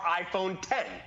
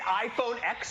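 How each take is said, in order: First: The last part is said as the number ten. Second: The last part is said as the letter ex. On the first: "Is it iPhone X or iPhone ten?" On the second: "Is it iPhone X or iPhone ten?"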